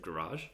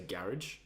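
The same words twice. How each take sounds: First: It is said the way Australians say it. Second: It is said the way English people say it. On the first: The speaker is Australian. "instead of garage" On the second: The speaker is secretly English. "they'll say garage"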